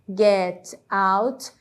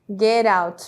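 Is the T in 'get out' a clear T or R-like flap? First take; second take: clear T; R-like flap. First: The T is a clear, separate T sound. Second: The T is linked, sounding like an R. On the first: "ao invés de get out" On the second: "as palavras se conectaram e o T ganhou um som de R"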